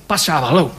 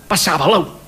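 Both takes have the same delivery.

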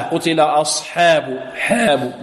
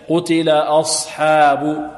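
First: Slow "حاب" bent to "hēb"; tilted ha. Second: Slow "أصحاب" with حا between thick and tilted; balanced fatha. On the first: Teacher showing the tilting error, "حاب" as "hēb". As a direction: tilt the a in "أصحاب حاب" towards e. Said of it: "وبدون إمالة". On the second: Teacher correcting to the middle, slow open "أصحاب". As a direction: hold a clear middle "hā" in "أصحاب". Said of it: "لا، بين ذلك". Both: Shown as a demonstration.

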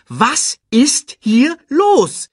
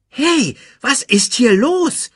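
First: High, loud, slow word by word; insistent repeat. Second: High, loud, baffled question; baffled demand. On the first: Timon repeats his question, slow and insistent. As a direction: space out every word, demanding an answer. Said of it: "Ich wiederhole". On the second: Timon watches lions celebrate, baffled high demand. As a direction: burst in, wanting an explanation. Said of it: "fragte Timon". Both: A narrator's reading.

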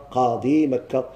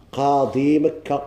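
First: Said in the usual way. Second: قاضي مكة read slow and deliberate; teacher's slow model reading; slow example phrase. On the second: Shown as a demonstration. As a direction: dictate قاضي مكة slowly for the class. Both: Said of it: "example phrase".

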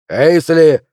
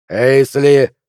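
First: Loud call, falling at the end; shouted name. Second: Loud sharp bark of a name. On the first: Flint shouting after Pelvis walking off, loud. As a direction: yell the name after him. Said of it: "закричал Флинт". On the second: Flint barking at Pelvis to stop him, loud. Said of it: "рявкнул Флинт". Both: Acted.

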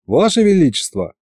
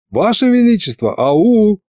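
First: Raised-pitch polite call; calling for attention. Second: Insistent calling. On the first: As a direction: hail the tsar, fairly restrained. Calling to inattentive tsar. (сдержанный оклик царя) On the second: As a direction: call out to someone who isn't listening. Second call, tsar not hearing. (настойчивый оклик, высоким голосом) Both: A narrator's reading.

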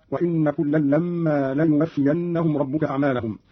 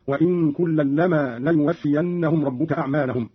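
First: Said in the usual way. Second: وإن as "wa-in" with hidden n, لما as short "lama"; don't double the n of وإن or the m of لما; lightened nun and mim. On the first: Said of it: "قوله تعالى". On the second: Shown as a demonstration. Teacher demonstrating Qalun, وإن lightened to "wa-in", لما to "lama". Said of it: "بإسكان النون مخففة".

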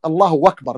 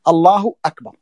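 First: الله أكبر run together as "Allahu-wakbar"; hamza dropped. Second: الله أكبر with a crisp glottal stop starting أكبر; clear hamza. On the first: Teacher showing the faulty takbir, hamza of أكبر turned to "w". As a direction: glide a "w" into أكبر in place of its hamza. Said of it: "لا، لا بد أن يأتي بالهمزة". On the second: Teacher showing the correct takbir, hamza of أكبر clearly sounded. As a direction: separate the words, starting أكبر on a firm hamza. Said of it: "لا بد أن يأتي بالهمزة". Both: Shown as a demonstration.

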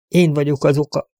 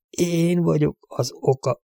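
First: Higher-pitched admission of guilt; understated confession. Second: Slow, softer, higher-pitched self-blame; quiet, stricken confession. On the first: Broken father blaming himself to the sheriff, understated confession. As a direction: own up to it, restrained. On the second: Broken father insisting on his guilt, quiet stricken confession. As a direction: draw out ÉN, quietly taking the guilt. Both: A narrator's reading.

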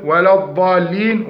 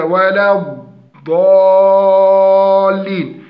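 First: الضالين with a short dad, no lateral extension; wrong dad. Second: ولا الضالين with a loud, long extended dad; correct dad. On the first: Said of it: "منهم من يقول". (لحن في الضاد) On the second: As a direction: stretch the dad of الضالين loudly and slowly. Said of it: "وهي". (استطالة الضاد بوضوح) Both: Shown as a demonstration.

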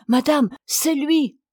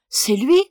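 First: Higher, louder, slow announcing cry; the maid calling out that the hairdresser has arrived, excited; maid's cry. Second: Louder, rising disbelief; wife echoing the maid's news as an eager question. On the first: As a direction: call out the good news, relieved. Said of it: "la femme de chambre s'écrie". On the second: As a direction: echo it back, hoping it's true. Wife echoes maid, questioning. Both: Acted.

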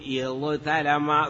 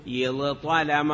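First: اضطلم as iẓ-talama, with a thin t; original form, light t. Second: اضطلم as iẓ-ṭalama, with a heavy ṭ; changed form, emphatic ṭ. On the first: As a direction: slowly split اضطلم into ẓ and a plain ta. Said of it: "أصله". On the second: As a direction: slowly sound ẓ then emphatic ṭ in اضطلم. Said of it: "قلبت التاء طاء فصار اضطلم". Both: Shown as a demonstration.

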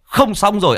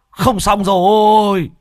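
First: High, loud cry of alarm; panicked shout. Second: High, loud, slow despairing cry; drawn-out wail. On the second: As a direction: stretch rồi out in dismay. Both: Acted. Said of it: "Mò Bá Cha hét lên".

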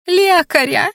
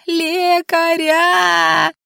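First: High-pitched frantic cry for help; hysterical scream. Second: Very slow, high drawn-out shout; hysterical wail. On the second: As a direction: stretch the cry into a long high wail. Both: A narrator's reading. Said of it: "истерично завопила Анфиса".

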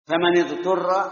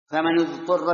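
First: فمن اضطر read "famani-ḍturra", with i after the nun; kasra on the nun. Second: فمن اضطر read "famanu-ḍturra", with u after the nun; damma on the nun. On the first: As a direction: link فمن to اضطر with a short i. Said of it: "بالكسر". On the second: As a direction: link فمن to اضطر with a short u. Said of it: "بالضم". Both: Shown as a demonstration.

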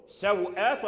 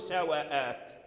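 First: سوءات as saw-āt, wāw without a vowel; silent wāw. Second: سواءات as sa-wa-āt, short a on the wāw; opened wāw. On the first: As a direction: close the first syllable of سوءات on the wāw. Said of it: "فتح الواو وإسكان الواو". (سوءات بإسكان الواو) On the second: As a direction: give the wāw in سواءات its own vowel. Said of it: "فتح الواو". (سواءات بفتح الواو) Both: Shown as a demonstration.

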